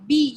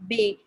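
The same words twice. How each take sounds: First: Said in the usual way. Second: B said the French way, "bay"; French letter B. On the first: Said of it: "You don't say B". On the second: Shown as a demonstration. Teacher showing students how French says B, bay. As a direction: say B as a French "bay", not "bee". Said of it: "you say B".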